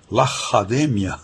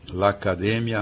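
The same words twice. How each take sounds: First: The middle consonant is a breathy h sound. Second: The middle consonant is a hard k sound.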